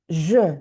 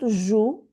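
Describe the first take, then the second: First: The vowel is a rounded 'eu' sound. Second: The vowel is a full 'oo' sound. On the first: The speaker calls it right. "it's like a forced smile around with lips" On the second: The speaker calls it wrong. "It's not jou"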